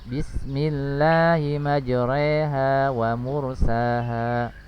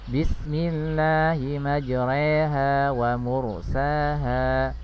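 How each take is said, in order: No difference in how they are said.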